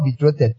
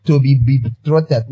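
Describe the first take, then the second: First: Said in the usual way. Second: "to be" said slow and weighty, pausing before "betrothed"; stress on to be. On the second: Shown as a demonstration. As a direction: lean hard on "to be", then "betrothed". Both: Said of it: "not betrothed".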